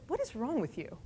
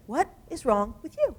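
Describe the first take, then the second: First: Said in the usual way. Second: Higher, disbelieving "What is wrong with you?"; incredulous repeat. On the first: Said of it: "And he said". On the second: Retold or imitated. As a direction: press it again in amazement, the end rising. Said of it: "He said".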